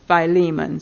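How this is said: The name is said the English way. "in English it is Philemon"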